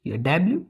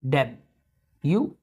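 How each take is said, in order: First: डब्ल्यू said as dablu; flat dablu for डब्ल्यू; how many people say डब्ल्यू; common wrong W. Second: डब्ल्यू said slowly as debju; slow, careful debju for डब्ल्यू; correct W. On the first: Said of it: "डब्ल्यू बोलते हैं बहुत से लोग इसको". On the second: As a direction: stretch डब्ल्यू into double-yu. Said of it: "वो भी नहीं, डब्ल्यू". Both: Shown as a demonstration.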